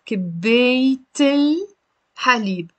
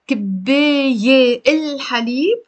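First: Kibeyt-il, then halib; T linked to the article. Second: كباية without the T, الحليب separate; no T between كباية and الحليب; wrong unlinked form. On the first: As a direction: carry the T of كباية into الحليب. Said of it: "We have to pronounce the T". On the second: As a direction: leave كباية open-ended before الحليب. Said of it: "غلط". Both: Shown as a demonstration.

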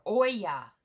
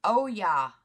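First: "Oya" as a loud OY-yah; "Oya" with an opening OY sound; OY-yah pronunciation. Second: "Oya" as a loud oh-YAH; "Oya" split into OH and YAH; oh-YAH pronunciation. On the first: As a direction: say "Oya" starting like "boy": OY-yah. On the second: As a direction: say "Oya" as oh, then a strong YAH. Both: Shown as a demonstration. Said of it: "I don't know how to pronounce your name".

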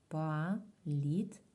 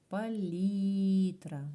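First: Палітра in three slow, separate syllables, "па - літ - ра"; split into syllables. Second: Палітра with a long, loud, drawn-out І in "лі"; stress on І. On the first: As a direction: break Палітра apart with a clear pause after each syllable. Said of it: "Ділимо на склади". (Палітра повільно, по складах: па - літ - ра) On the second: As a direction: stretch and punch the stressed second syllable of Палітра. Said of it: "І наголос". (Палітра з протяжним наголосом на «лі») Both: Shown as a demonstration.

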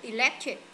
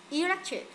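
First: "electric" with weight on LEC; stress on second syllable. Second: "Electric" with a high E at the start; stress on first syllable. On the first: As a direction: lean on the middle of electric. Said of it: "Electric nhấn âm hai này". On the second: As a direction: wrongly hit the opening E of Electric. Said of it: "con nào?". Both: Shown as a demonstration.

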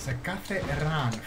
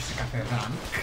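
First: Slow, drawn-out "σε κάθε run"; stress on RUN. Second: Said in the usual way. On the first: Real, not acted. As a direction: linger on "run" as the corrected word. (αργά, με έμφαση στο "run") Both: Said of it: "όχι σε κάθε rank".

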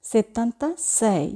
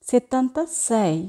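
No difference in how they are said.

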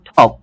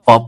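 First: টপ with a puffed t, "thop"; aspirated T. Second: Said in the usual way. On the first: Shown as a demonstration. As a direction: puff air after the t in টপ. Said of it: "উচ্চারণ করব". (টপ-কে "ঠপ" উচ্চারণ) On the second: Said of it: "যদি বলি".

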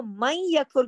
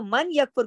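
First: "मई यकफुर" with the n turned into a doubled y; idgham reading. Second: "मन यकफुर" quickly, with a separate n before the y; unmerged noon. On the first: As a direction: merge "मई यकफुर" into "mayy-yakfur". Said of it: "इदगाम किया है हमने". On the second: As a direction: say "मन यकफुर" with the n sounded clearly. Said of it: "क्योंकि वो गलत है". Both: Shown as a demonstration.

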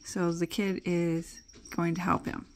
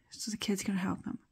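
First: Said in the usual way. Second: Fast, softer unvoiced whisper. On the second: Shown as a demonstration. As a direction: whisper it quickly to yourself. Repeated line, whispered.

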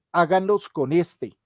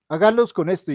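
First: Said in the usual way. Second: "Háganlos" hit louder as a firm instruction; stress on háganlos. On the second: Shown as a demonstration. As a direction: repeat it louder, pushing "Háganlos". (énfasis fuerte en "Háganlos", como orden al grupo)

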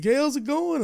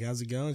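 First: High, loud, cheery greeting from the regular; bouncy mock greeting, pitched up; imitating the bar lady. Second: Said in the usual way. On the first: Bar regular greets her favourite bartender, high and loud. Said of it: "She's like". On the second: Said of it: "I'm like".

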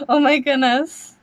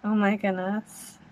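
First: Higher, rising thrilled gasp of words; excited. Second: Softer, awestruck murmur; awed hush. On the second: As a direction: say it under your breath, in awe. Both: Real, not acted. Reacting live to trailer.

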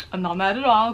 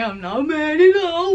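First: Said in the usual way. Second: Pitched way up, loud and rising; sing-song fake-innocent not mad at all; squeaky over-bright insistence; high mock denial. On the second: Repeated denial, raised and rising.

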